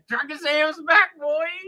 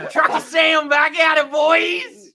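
First: High, slow mock American cowboy twang; cowboy American, less yelled. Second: Loud, high, drawn-out American cowboy holler; yelled cowboy American. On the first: Redoing his American accent when told not to yell, cowboy-style. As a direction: put on a cowboy American accent without full yelling. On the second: Showing friends his American accent, yelling like a cowboy. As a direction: yell it as a hammed-up American cowboy. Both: Shown as a demonstration. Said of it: "Do it normal without yelling".

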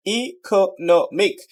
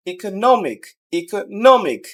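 First: Syllable by syllable. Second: Whole word "economic" with stress on নো; stress before ending. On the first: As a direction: slowly split "economic" as ই, কো, নো, মিক. Teacher breaks word into syllables. ("Economic" ধীরে ভেঙে ভেঙে) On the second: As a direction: punch নো in "economic", falling after it. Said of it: "শেষের আগের সিলেবলটাকে". ("ইকোনমিক"-এর নো-তে জোর) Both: Shown as a demonstration.

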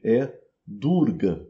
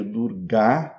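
First: "Durga" with a short, closed final A; Hindi short A. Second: "Durga" with a long, open final A; Sanskrit long A. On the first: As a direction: clip the end of "Durga". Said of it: "Um A curto e fechado". ("Durga" com A final curto) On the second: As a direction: stretch the last A of "Durga". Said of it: "um A longo e aberto". ("Durga" com A longo e aberto) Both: Shown as a demonstration.

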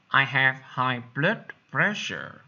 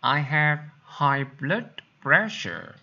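The two takes are said the same way.

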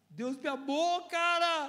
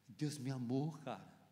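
First: High, loud joyful outburst; rising exultation. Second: Low, soft confession; quiet awe. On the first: Preacher bursting out over being loved by God, rising exultation. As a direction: build from the words into a high cry. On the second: Preacher recalling being loved while a wreck, quiet awe. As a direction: let it drop low, almost to yourself. Moved testimony, before shouting it. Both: Real, not acted.

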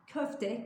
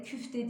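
First: "Köfte" with ö in the first syllable; higher-pitched demonstration of "Köfte" with ö; correct pronunciation. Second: "küfte" with ü in the first syllable; wrong pronunciation. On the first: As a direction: round "Köfte" on a clear ö. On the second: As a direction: close the vowel to ü in "küfte". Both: Shown as a demonstration. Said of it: "küfte değil".

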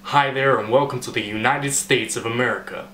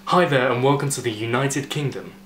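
First: Put-on welcoming American announcer accent. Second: Said in the usual way. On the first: Host welcoming people to the United States, American accent. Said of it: "it sort of sounds American to me".

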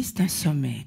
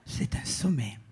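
First: Said in the usual way. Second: Low, whispered "C'est un sommet"; whispered "C'est un sommet" to the audience; whispered punchline. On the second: Shown as a demonstration. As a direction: breathe "C'est un sommet" like a secret.

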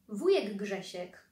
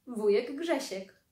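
First: Said in the usual way. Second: Slow and weighty, falling on Grzesiek; dramatic reveal. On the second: A narrator's reading. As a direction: unveil the surprise guest slowly. Wielkie wejście wujka. (powolne, uroczyste odsłonięcie: wujek Grzesiek)

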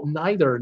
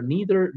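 First: "neither" said as NYE-ther, long i like "eye"; nye-ther pronunciation. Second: "neither" said as NEE-ther, long e like "see"; nee-ther pronunciation. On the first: Quiz host rejecting guesses, says neither as NYE-ther. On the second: Quiz host rejecting guesses, says neither as NEE-ther. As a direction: switch "neither" to the "ee" vowel. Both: Shown as a demonstration. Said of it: "quiz host toys with pronunciation".

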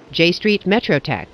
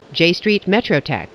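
Both takes have the same delivery.

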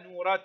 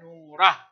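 First: Soft نورة with a sounded "ta" ending; ta with its vowel. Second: نورة ending in breath on "ah"; pausal ha. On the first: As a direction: keep the t at the end of نورة. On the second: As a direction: drop the t of نورة for an h. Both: Shown as a demonstration. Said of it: "تنطق تاء".

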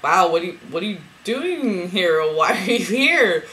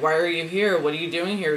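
First: Stretched-out, swooping astonished questions. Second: Said in the usual way. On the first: Retold or imitated. Greeting her twin flame in a dream, astonished.

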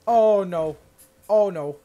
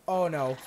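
First: Oh no yelled much louder in hammed-up dread; loud mock dread. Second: Said in the usual way. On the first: Gamer dreading the opponent's attack, loud mock wail. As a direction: wail Oh no as the hit comes.

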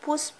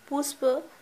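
First: Said in the usual way. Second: पुष्प said fully as pus-pa, both syllables clear; teacher's clear repeat; careful enunciation. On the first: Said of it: "फूल". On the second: Shown as a demonstration. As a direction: spell out पुष्प slowly for pupils.

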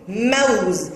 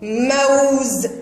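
First: Said in the usual way. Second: "موز" slowly as mawwz, w held; pronounced waw. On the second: Shown as a demonstration. Teacher demonstrates spoken waw, glide drawn out. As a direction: stretch the diphthong of موز. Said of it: "هنا الواو تنطق بصوتها".

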